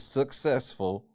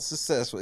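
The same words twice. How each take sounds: First: The middle of the word has a k sound. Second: The middle of the word has no k sound. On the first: The speaker calls it right. "There's two C's in that motherfucker" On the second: The speaker calls it wrong. "It's not successful"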